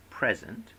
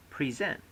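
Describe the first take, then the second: First: "present" stressed on the first syllable; noun stress. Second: "present" stressed on the second syllable; verb stress. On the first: Lecturer showing stress shift to students, noun PREZ-ent. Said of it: "from noun to verb". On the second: Lecturer showing stress shift to students, verb pre-ZENT. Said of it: "often change accent". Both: Shown as a demonstration.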